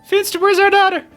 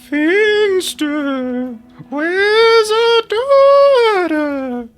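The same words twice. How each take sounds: First: It is said in a normal voice. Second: It is said in a spooky, questioning voice.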